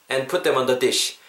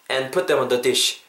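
The two takes are said the same way.

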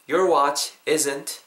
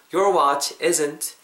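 Both takes have the same delivery.

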